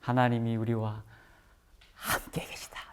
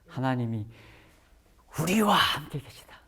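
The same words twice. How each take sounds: First: The stress is on 함께. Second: The stress is on 우리와.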